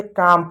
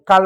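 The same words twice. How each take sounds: First: काम with long आ straight into m; silent L. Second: काल with an audible L after the vowel; L wrongly sounded. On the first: Teacher showing the correct reading, काम with the L left silent. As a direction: say काम with no L sound at all. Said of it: "क्योंकि एल silent होता है". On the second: Teacher showing what not to read, काल with L pronounced. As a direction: voice the L in काल, as the mistaken reading. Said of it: "काल नहीं पढ़ेंगे". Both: Shown as a demonstration.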